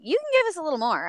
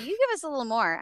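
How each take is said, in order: First: Higher, quick coaxing quote; lightly singsong urging, said fast; imitating a director asking for more. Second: Higher-pitched coaxing quote; lilting retold nudge for more energy; imitating a director's repeated request; director urging more. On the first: Retold director urging more energy.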